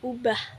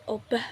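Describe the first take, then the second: First: The word begins with a u sound. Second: The word begins with an o sound. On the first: The speaker calls it right. "bentuk tata bahasa yang benar adalah ubah" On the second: The speaker calls it wrong. "Bukan obah"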